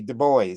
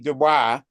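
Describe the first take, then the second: First: The name is pronounced the American way. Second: The name is pronounced the French way. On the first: "American pronunciation would be Du Bois" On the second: "the French pronunciation be Dubois"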